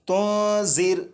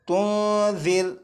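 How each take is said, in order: First: The consonant has a sharp buzzing hiss. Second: The consonant is soft, without any hissing. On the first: The speaker calls it wrong. "इसे इस तरह नहीं पढ़ेंगे" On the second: The speaker calls it right. "सीटी की आवाज़ ख़त्म हो जाएगी"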